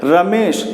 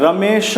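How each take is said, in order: First: रमेश ending crisply on श, no vowel after it; right take, रमेश cut short on the final श; रमेश as "ra-mesh", clipped at the end; correct short ending. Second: रमेश said as "रमेशअ", a short vowel added after श; wrong take, with an extra "अ" after the श of रमेश; रमेश with a trailing schwa, as "ra-me-sha"; wrong, drawn-out ending. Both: Shown as a demonstration. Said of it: "रमेश नहीं बोलना है".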